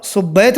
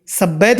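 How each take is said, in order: First: "सुब्बैत" opening on "sub"; correct "su" vowel. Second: "सब्बैत" opening on "sab"; wrong vowel. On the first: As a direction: say "सुब्बैत" with short u in the first syllable. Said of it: "और सुब्बैत बोलोगे तो". ("सुब्बैत" में स पर उ की आवाज़) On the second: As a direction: say "सब्बैत" with short a in the first syllable. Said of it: "सब्बैत बोलोगे तो". ("सब्बैत" में स पर अ की आवाज़) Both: Shown as a demonstration.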